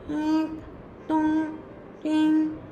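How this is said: The voice has a strongly nasal quality. "a nasal quality"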